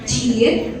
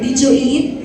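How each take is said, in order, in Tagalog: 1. Pinagsama ang mga salita sa isang maikling pantig. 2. Tatlong salita ang buong binibigkas nang hiwalay. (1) "Sa mga native speakers, sasabihin lang nila" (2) "Filipino way of saying it kasi tatlong words eh"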